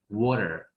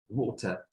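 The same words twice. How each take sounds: First: It is said in an American accent. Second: It is said in a British accent.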